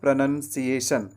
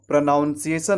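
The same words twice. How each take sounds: First: The second syllable sounds like 'nun'. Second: The second syllable sounds like 'noun'. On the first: The speaker calls it right. "प्र के बाद आपको नन कहना है" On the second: The speaker calls it wrong. "प्र के बाद नाउन नहीं कहना है"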